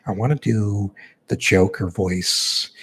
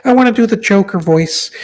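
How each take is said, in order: First: Said in the usual way. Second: Joker voice. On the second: Pretend.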